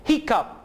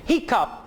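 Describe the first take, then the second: The two takes are said the same way.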